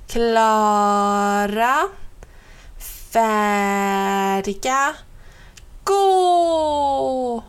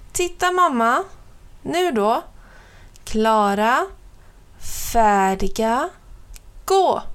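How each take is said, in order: First: Drawn-out countdown. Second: Put-on a small boy psyching himself up; excited countdown. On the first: Little brother counts down slowly before his longest run. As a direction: build suspense before the run. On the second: Little brother starting his run. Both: A narrator's reading.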